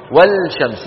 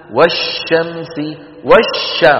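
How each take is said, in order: First: والشمس with the L pronounced, "wal-shamsi"; wrong sounded lam. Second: Slow والشمس with no L, doubled "wash-shamsi"; merged sun lam. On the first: Teacher shows what not to say, lam wrongly sounded. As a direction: sound a separate L before SH in والشمس. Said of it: "ولا نقول". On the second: Teacher models assimilation for students, lam merged into a doubled sheen. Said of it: "فهي من قبيل المتماثلين". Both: Shown as a demonstration.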